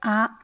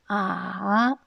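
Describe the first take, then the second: First: It is said with the high level first tone. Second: It is said with the dipping third tone. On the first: It expresses admiration. "« à » c'est la première ton" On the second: It expresses doubt. "a se prononce le troisième ton"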